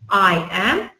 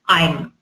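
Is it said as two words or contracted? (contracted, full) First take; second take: full; contracted. First: Both words are said fully and separately. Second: The two words are merged into one syllable. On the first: "Instead of saying I am" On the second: "Or you can make it shorter"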